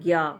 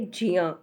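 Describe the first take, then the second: First: The syllable is not said as j plus iya. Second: The syllable is said as j plus iya. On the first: The speaker calls it wrong. "आप सोचोगे ज्ञ इस तरह से होगा, this is wrong" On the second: The speaker calls it right. "ज और इया, ये दो लेटर मिलकर बने हैं ... तो इसको हम लोग बोलेंगे जिया"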